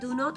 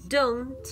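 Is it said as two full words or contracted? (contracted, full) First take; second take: full; contracted. First: Both words are said in full, separately. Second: The words are merged into one quick syllable. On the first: "este do not" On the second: "se puede contraer y decir más rápido, más fácil"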